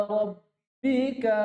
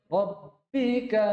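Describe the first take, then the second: No difference in how they are said.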